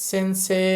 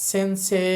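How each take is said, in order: No difference in how they are said.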